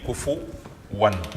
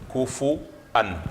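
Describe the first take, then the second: First: A w sound comes before the final syllable. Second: A glottal stop comes before the final syllable. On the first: This follows the Hafs reading. "nous allons dire kufu wan" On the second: This follows the Warsh reading. "kufu an avec un hamza sur le sur le waw"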